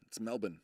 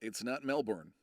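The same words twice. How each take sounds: First: Melbourne as MEL-bin; correct pronunciation. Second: Melbourne as MEL-born, R sounded; wrong pronunciation. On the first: Streamer gives viewers the right way, Melbourne said MEL-bin. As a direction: swallow the end of Melbourne to "bin", no R. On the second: Streamer names the mistake for viewers, Melbourne said MEL-born. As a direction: give Melbourne its full "born" ending. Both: Shown as a demonstration.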